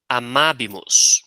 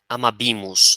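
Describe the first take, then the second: First: The stress falls on the third-to-last syllable. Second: The stress falls on the second-to-last syllable. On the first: The speaker calls it right. "trata-se de uma proparoxítona" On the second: The speaker calls it wrong. "não é amabimos"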